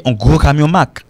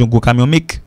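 First: "Mac" with a clear open A; correct vowel demo. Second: "make" said as short "mik" for Mack; wrong vowel demo. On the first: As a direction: say "Mac" as "mak" at the end. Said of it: "ça se prononce Mac". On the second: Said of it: "Mais il pas dit". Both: Shown as a demonstration.

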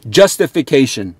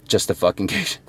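First: Said in the usual way. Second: A quiet, inward echo of Justification; hushed repeat. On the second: Real, not acted. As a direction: drop to a near-whisper on Justification. Repeating the key word for emphasis.

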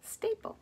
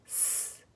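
First: Said in the usual way. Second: "staple" very softly as s, t, long a, p, l, with gaps; each sound of "staple" separately, very quiet; broken into phonemes. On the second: Shown as a demonstration. Breaking a word apart for phonics, "staple" segmented. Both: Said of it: "Now break it apart".

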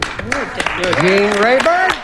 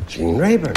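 First: Long drawn-out rising call; game show host call. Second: Said in the usual way. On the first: Real, not acted. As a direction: stretch Gene Rayburn out to the board. Host calls answer to board.

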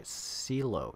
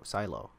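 First: Silo said as SEE-loh; trying a pronunciation. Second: Silo said as SIGH-loh; corrected pronunciation. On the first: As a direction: say Silo with a long "ee" in the first syllable. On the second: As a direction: say Silo with an "eye" vowel in the first syllable. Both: Real, not acted. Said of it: "Try talking to Si-, Silo, Silo".

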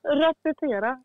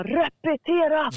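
First: "Repetera" repeated through laughter, higher and slow; amused echo of "Repetera", not shouted; laughing repeat. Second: Higher, slow barked command; mock drill-sergeant yell of "Repetera", drawn out; slow shouted "Repetera!" with a falling end; retold military shout. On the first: Retold or imitated. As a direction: giggle the word "Repetera" with a rising end. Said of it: "repeats the shout laughing". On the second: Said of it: "då bara skriker han".

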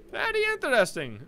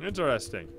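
First: Put-on high little-boy voice; child's echo. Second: Said in the usual way. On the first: Fluffy echoing David's interest, high child voice. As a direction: copy the grown-up in a kid's voice.

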